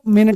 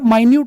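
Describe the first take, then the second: First: It is said 'MIN-it' with a short first vowel. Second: It is said 'my-NYOOT' with a long first vowel. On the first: It means a unit of time. "अगर आप इसे मिनट पढ़ते तो ये बेटा वो मिनट हो जाती" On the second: It means very small. "अगर आप इसे माइन्यूट पढ़ते तो बेटा माइन्यूट का मतलब होता है बहुत छोटा"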